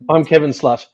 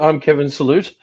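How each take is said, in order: First: The last word has one syllable. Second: The last word has two syllables. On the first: The speaker calls it wrong. "but it looks like" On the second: The speaker calls it right. "it's actually I'm Kevin Salute"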